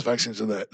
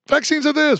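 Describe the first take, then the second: First: Much lower, softer mock; mocking low take. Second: Much higher, sing-song mock; mocking high take. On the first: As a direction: answer yourself down low. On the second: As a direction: toss it off up high. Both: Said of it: "the contradictions from the left".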